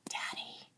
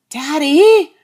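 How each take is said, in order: First: It is said very quietly. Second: It is said a little louder.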